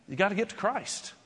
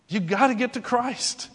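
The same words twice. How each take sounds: First: Quiet. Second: Said in the usual way. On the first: Shown as a demonstration.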